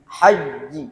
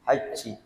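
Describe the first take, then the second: First: The j sound is firm with no hiss. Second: The j sound is followed by a hiss.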